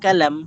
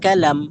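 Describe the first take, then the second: The two takes are said the same way.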